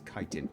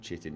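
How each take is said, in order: First: The word begins with a k sound. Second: The word begins with a ch sound. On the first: The speaker calls it right. "It's kiting" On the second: The speaker calls it wrong. "it's not chitting"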